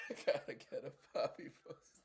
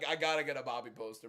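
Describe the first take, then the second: First: Breathless wheeze through laughter; laughing so hard the voice goes; wheezing laugh. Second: Said in the usual way. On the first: Real, not acted. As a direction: airless giggling repeat. Repeats line while laughing.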